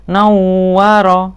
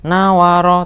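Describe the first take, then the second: First: The w sound is pressed and doubled. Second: The w sound is short and single. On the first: The speaker calls it right. "tapi nawaro, ditekan wawunya" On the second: The speaker calls it wrong. "tidak boleh nawaro"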